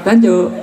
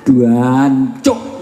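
First: Short clipped "Dancuk", said fast and higher; quick curse. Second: Stretched "Duancuk" with a drawn-out first syllable; East Javanese curse. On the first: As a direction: snap out "Dancuk" in one quick burst. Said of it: "Nggak ada orang marah kok". ("Dancuk" diucapkan singkat dan cepat) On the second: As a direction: swear it East Java style, dragging the "Duan". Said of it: "Apalagi Jawa Timur". (umpatan Jawa Timur "Duancuk" dengan suku kata pertama dipanjangkan) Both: Retold or imitated.

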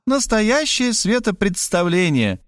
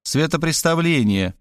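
First: Светопредставление with an extra д, said proudly; mispronounced word. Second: Светопреставление said correctly, no д; correct word. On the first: Varvara mangling светопредставление with an extra д. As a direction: say светопредставление, wrongly with д. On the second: Kristina correcting Varvara: Светопреставление, without д. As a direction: correct her: Светопреставление, clearly. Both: A narrator's reading. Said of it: "поправила её Кристина".

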